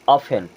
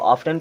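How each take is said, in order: First: The t sound is left silent. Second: The t sound is clearly pronounced. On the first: The speaker calls it right. "यहाँ पे भी टी silent" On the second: The speaker calls it wrong. "आप इसको ऑफ्टन पढ़ते होंगे और आपके teacher बोलते होंगे ऑफेन है।"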